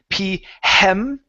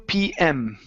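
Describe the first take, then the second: First: An h sound comes before the m. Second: No h sound comes before the m. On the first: The speaker calls it wrong. "Let's take off the H. So instead of saying P hem" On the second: The speaker calls it right. "it's two p m"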